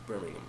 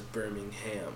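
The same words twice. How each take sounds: First: The last syllable is reduced, not 'ham'. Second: The last syllable is a full 'ham'. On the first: "It says Ham, but for them it's Birmingham" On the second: "we were pronounced as Birmingham"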